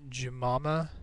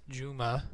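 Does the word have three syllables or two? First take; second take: three; two. First: The word is said with three syllables. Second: The word is said with two syllables. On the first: The speaker calls it wrong. "as you pronounced it" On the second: The speaker calls it right. "it's Juma"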